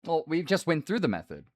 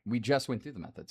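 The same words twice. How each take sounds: First: Loud, excited, with through punched; louder exclamation. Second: Said in the usual way. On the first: Shown as a demonstration. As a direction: stress on through, loud and high.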